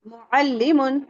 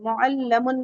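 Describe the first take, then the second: First: The vowel after the doubled L is 'i'. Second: The vowel after the doubled L is 'a'. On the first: The speaker calls it right. "तशदीद के नीचे कसरा हो तो वो कसरा ही होता है" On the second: The speaker calls it wrong. "मुअल्लमुन नहीं पढ़िएगा"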